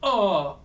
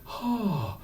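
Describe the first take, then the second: First: The vowel starts with a hard glottal catch. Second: The vowel starts with audible breath. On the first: "And we don't want" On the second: "we don't want a breathy"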